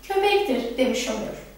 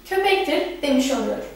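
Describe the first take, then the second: The two takes are said the same way.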